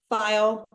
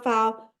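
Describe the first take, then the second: First: Said in the usual way. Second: "file" flattened to "fahl", no glide on the i; drawled Southern "fahl" for "file". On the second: Real, not acted. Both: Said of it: "Sounds very Southern".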